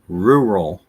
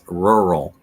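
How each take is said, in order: First: The first syllable sounds like 'roo'. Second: The first syllable sounds like 'rur'. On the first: The speaker calls it wrong. "The incorrect way is rural. It's not ru" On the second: The speaker calls it right. "the correct way is rural. it's rur"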